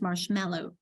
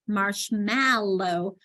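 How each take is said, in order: First: The second syllable has a swallowed, reduced vowel. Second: The second syllable has a full, clear vowel. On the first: The speaker calls it right. "but it's" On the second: The speaker calls it wrong. "It's not a clear marshmallow"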